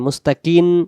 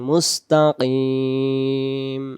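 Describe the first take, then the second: First: The word ends with an n sound. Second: The word ends with an m sound. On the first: The speaker calls it wrong. "কিন হবে না" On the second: The speaker calls it right. "শেষে মিম অক্ষর ম হবে"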